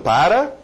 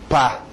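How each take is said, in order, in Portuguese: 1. As duas sílabas são ditas por completo. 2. Resta apenas uma sílaba curta com uma vogal. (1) "eu estou falando para... Não" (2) "ou até um pá"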